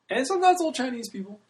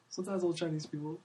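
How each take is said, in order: First: First, higher take of the aside; raised aside. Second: Softer, under the breath repeat; second, hushed take of the aside; quiet repeat. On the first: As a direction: lift the voice on sometimes. Repeated phrase, first take raised. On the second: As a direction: drop it to a soft afterthought. Repeated phrase, second take dropped. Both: Real, not acted.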